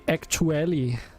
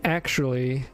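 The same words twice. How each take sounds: First: It is said hard and chunky, Danish-accented. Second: It is said smoothly in ordinary English. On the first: "he would say actually" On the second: "instead of saying actually"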